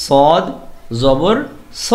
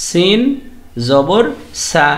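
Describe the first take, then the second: First: স said heavy and full with a rounded o; heavy o sound. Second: সা said thin and light with an open a; thin a sound. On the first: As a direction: make স thick, vowel toward o. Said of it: "সদটাকে অ sound দিয়ে বলতে হবে". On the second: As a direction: keep সা light and clear. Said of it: "সিনটাকে আ sound দিয়ে বলতে হবে". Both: Shown as a demonstration.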